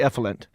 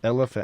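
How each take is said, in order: First: The word is said as 'effluent'. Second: The word is said as 'elephant'. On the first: The speaker calls it wrong. "I'd say effluent" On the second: The speaker calls it right. "one word I could not get down was elephant"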